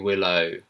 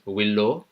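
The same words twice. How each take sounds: First: The name is said with a British accent. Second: The name is said with an Indian accent. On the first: "in the British accent, it'll be" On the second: "In the Indian accent, I've heard it being pronounced"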